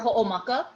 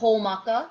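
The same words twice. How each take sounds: First: A glottal catch splits the first vowels. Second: The first vowels run together without a catch. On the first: The speaker calls it right. "Same thing for Ho'omaka" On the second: The speaker calls it wrong. "Instead of Ho'omaka"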